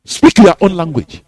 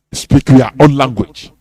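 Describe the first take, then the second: First: "your" pressed hardest in "Speak your own language"; stress on your. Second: "own" pressed hardest in "Speak your own language"; stress on own. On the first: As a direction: lean on "your", let the rest fall. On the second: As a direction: lean on "own", lower and firm. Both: Acted. Repeated exhortation.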